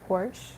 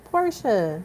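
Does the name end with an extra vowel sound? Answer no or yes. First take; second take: no; yes. First: The name ends without a final vowel sound. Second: The name ends with an added final vowel sound. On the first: The speaker calls it wrong. "If I'm mispronouncing it, I'm sorry" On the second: The speaker calls it right. "that's literally how you say it"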